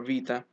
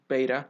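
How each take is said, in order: First: The word begins with a V sound. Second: The word begins with a B sound. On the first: This is the modern pronunciation. "pronounced V commonly, so V for Vita" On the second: This is the ancient pronunciation. "pronounced B in ancient Greek, like B for beta"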